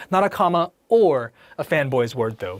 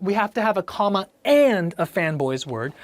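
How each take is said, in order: First: Or pressed and dismissed; stress on OR. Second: And pressed in the phrase; stress on AND. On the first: Teacher rejecting or in favor of and. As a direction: hit or as the wrong one. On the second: Teacher insisting on and over or. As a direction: hit and. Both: Shown as a demonstration. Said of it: "Because we have".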